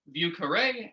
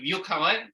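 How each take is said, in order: First: It is said with an anglicized French pronunciation. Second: It is said with a standard French pronunciation.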